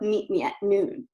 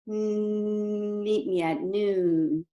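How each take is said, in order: First: The voice sounds strained and tight in the throat. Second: The voice is smooth and forward-focused.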